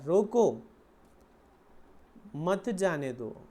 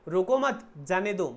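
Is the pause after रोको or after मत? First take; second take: after रोको; after मत. First: There is a pause after रोको. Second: There is a pause after मत.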